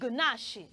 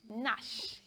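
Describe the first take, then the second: First: The initial G is sounded before the N. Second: The initial G is silent; it starts with N. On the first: The speaker calls it wrong. "That word is not pronounced gunashi" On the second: The speaker calls it right. "that word is pronounced nash"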